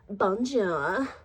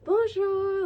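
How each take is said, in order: First: It is said in a sassy, snide way. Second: It is said in a friendly, smiley way.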